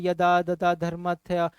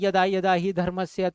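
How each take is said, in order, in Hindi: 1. शब्द गड़बड़ हैं, 'th' की आवाज़ के साथ। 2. शब्द साफ़ कहे गए हैं, 's' की आवाज़ के साथ।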